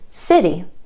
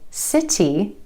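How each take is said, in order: First: The middle T is a quick D-like flap. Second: The middle T is a crisp, released T. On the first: The speaker calls it right. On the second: The speaker calls it wrong.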